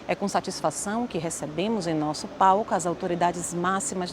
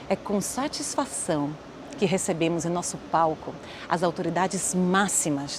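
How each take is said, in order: First: Satisfação is said plainly, without extra emphasis. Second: Satisfação is said with a slight extra emphasis. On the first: The speaker calls it wrong. "Posso falar assim, mas eu posso melhorar" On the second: The speaker calls it right. "eu dou uma micro evidenciada nela"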